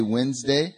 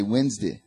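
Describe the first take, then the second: First: Said in the usual way. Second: Wednesday with a reduced last syllable, "Wenz-dee"; Southern pronunciation. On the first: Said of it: "I'd say Wednesday". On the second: Shown as a demonstration. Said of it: "people used to make fun of me".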